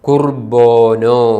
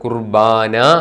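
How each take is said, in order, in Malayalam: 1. അവസാനത്തെ രണ്ട് സ്വരങ്ങൾ 'o' ആയി ഉച്ചരിക്കുന്നു. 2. അവസാനത്തെ രണ്ട് സ്വരങ്ങൾ 'a' ആയി ഉച്ചരിക്കുന്നു. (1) "വെസ്റ്റ് സിറിയക്കിൽ ശരിയായ ഉച്ചാരണം കുർബോനോ" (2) "ഈസ്റ്റ് സിറിയക്കിൻ്റെ സ്വാധീനം കൊണ്ട് നമ്മൾ കുർബാന എന്ന് പറയും"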